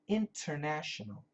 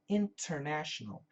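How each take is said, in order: First: Every syllable is pronounced fully and carefully. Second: Every syllable is pronounced fully and carefully.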